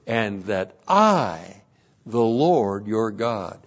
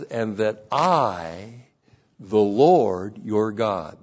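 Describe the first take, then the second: First: Slow and lower; a measured, low reread; slow literal reading. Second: Slow, deliberate, lower voice; slow literal reading. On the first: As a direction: let every word stand alone. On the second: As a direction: lay each word down slowly. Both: Acted. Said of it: "It literally says".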